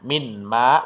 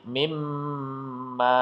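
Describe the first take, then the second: First: The n sound is pronounced before the m. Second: The n sound disappears into a held m. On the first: The speaker calls it wrong. "bukan minma" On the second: The speaker calls it right. "tapi mimma ya, nun sukunnya hilang"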